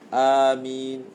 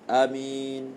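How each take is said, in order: First: The first vowel is drawn out long. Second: The first vowel is said short. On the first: "boleh baca dengan mad amin" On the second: "ataupun dengan qasar"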